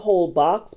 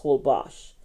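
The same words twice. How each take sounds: First: "Holbox" said as spelled, ending in box; spelling pronunciation. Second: "Holbox" said as hol-BOSH; local pronunciation. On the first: Travel vlogger showing the spelling, spelled-out pronunciation. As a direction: say "Holbox" letter for letter, with a hard x. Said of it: "it's spelled Holbox". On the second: Travel vlogger correcting the island's name, proper pronunciation. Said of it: "but it's pronounced Holbox". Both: Shown as a demonstration.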